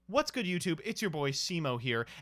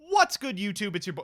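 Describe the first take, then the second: First: It is said more quietly. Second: It is said loudly.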